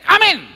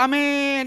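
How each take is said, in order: First: The word is said short and quick. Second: The word is drawn out long.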